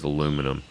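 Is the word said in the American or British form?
American. It is said with four syllables, alu-mi-num.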